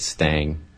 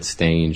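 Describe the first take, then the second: First: The vowel sounds like the one in 'hang'. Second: The vowel sounds like the one in 'day'. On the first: This is how the name was said earlier. The speaker calls it wrong. "I pronounced it Stang" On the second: This is the correct way to say the name. The speaker calls it right. "maybe I should have pronounced it Stange"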